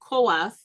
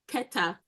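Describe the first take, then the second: First: The name has an o vowel: Koath. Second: The name has an e vowel: Keta. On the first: This is the conventional scholarly form. The speaker calls it wrong. "the scholars deter- decided to call his name Koath" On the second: This is the form matching the actual spelling. The speaker calls it right. "his name is really Keta. Keta is the name"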